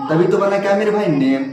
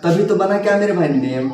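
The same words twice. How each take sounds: The two takes are said the same way.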